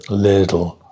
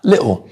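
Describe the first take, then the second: First: The middle consonant sounds like a soft D. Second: The middle T is left out entirely. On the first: "American English is more little with a with a D" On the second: "some English people will say little and miss the T out altogether"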